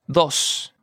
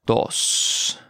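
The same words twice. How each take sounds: First: Said in the usual way. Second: "Dos" drawn out slowly; slow model. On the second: Shown as a demonstration. Teacher modelling vocabulary for learners, slow "Dos". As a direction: stretch out each sound of "Dos".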